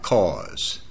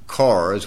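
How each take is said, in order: First: The word is said without an r sound. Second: The word is said with an r sound. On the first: This is how locals say it. The speaker calls it right. "we drive cars" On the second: This is how outsiders say it. The speaker calls it wrong. "We don't drive cars"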